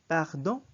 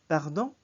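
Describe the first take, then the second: The two takes are said the same way.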